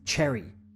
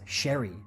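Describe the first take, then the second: First: The name begins with a 'ch' sound. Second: The name begins with an 'sh' sound. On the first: The speaker calls it wrong. "pronouncing his name as Cherry, C H, with a C H sound" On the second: The speaker calls it right. "It's actually pronounced Sherry with an S H sound"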